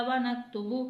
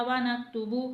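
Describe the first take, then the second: The two takes are said the same way.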